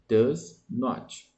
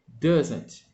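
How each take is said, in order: First: It is said as two separate full words. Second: It is said as one contracted word. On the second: "se pronuncia doesn't"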